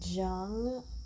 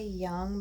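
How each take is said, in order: First: The name begins with a J sound. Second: The name begins with a Y sound. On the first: This is how the current speaker says it. "I don't pronounce it like that because that's a J" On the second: This is how other people say it. "they say Young"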